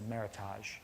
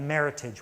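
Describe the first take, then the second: First: It is said with a French-style pronunciation. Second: It is said with a plain English pronunciation.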